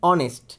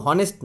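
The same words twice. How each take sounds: First: অনেস্ট with no h, opening on a bare vowel; teacher gives the correct অনেস্ট; right pronunciation. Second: হনেস্ট with a sounded h at the start; teacher shows the wrong হনেস্ট; wrong pronunciation. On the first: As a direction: say অনেস্ট with the h dropped. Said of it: "হনেস্ট না". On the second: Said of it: "এটার উচ্চারণ কিন্তু হনেস্ট না". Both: Shown as a demonstration.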